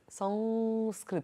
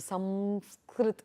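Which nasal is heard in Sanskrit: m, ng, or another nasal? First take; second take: another nasal; m. First: The nasal is neither m nor ng. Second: The nasal is said as an m sound. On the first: This is how it is said in Maharashtra. "It's a different kind of a uh, anuswara that they apply" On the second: This is how it is said in the south. "In the south, they would tend to keep it as a makara"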